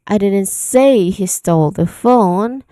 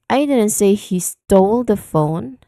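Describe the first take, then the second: First: The word say carries the main stress. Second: The word stole carries the main stress. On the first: The speaker never actually said it. "you are referring to the act of saying" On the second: The focus is on the act of stealing. "put the stress on the word stole"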